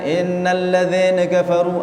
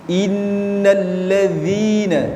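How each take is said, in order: First: The kasrah vowel drifts toward an 'e' sound. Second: The kasrah vowel is a clear, wide 'i' sound. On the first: The speaker calls it wrong. "Jangan sampai keluar e ya. ... Ada orang baca seperti itu" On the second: The speaker calls it right. "Yang benar i"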